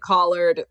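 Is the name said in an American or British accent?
American. The name is said with an American pronunciation. This is how the speakers' own community says it. "We would say Collard"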